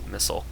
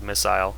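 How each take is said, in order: First: It is said in a plain American way. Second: It is said in a British way. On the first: "I'm just gonna say missile" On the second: "that's how the British people say it"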